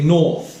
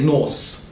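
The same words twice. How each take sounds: First: The word ends with a th sound. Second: The word ends with an s sound. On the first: The speaker calls it right. "bite your tongue, yeah, like this, and then make the F sound" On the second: The speaker calls it wrong. "be careful not to say north"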